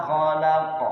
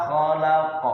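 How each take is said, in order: No difference in how they are said.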